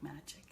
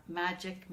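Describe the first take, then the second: First: Fading whisper-soft. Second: Said in the usual way. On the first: Real, not acted. Repeats word, trailing off.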